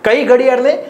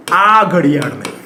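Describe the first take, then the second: First: Said in the usual way. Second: Lower, slower, stress on આ; emphatic answer. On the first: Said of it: "teacher asks rhetorical question". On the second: Shown as a demonstration. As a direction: point to આ ઘડિયાળને, pressing આ. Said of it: "teacher answers own question".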